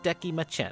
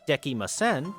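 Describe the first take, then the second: First: The word is said with a ch sound. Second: The word is said with an s sound. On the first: "replaced with the ch sound" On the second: "the S sounds"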